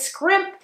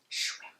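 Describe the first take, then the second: First: The word begins with an 'sk' sound. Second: The word begins with an 'sh' sound. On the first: The speaker calls it wrong. "scrimp is a shellfish" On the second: The speaker calls it right. "it's shrimp, okay?"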